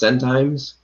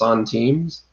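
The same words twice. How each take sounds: First: The word is said with English pronunciation. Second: The word is said with French pronunciation. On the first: The speaker calls it wrong. "I used to call those centimes" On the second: The speaker calls it right. "it's actually pronounced centimes"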